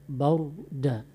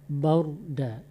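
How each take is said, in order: No difference in how they are said.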